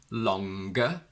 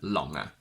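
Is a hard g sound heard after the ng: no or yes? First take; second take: yes; no. First: A hard g follows the ng sound. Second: The ng is not followed by a g. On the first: The speaker calls it right. "we don't keep the ng, but we go ng" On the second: The speaker calls it wrong. "We can't say stronger and longer"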